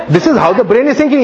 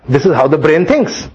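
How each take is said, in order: First: Higher, faster, with a laugh; laughing restatement. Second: Said in the usual way. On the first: Shown as a demonstration. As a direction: laugh as you rephrase it, quicker.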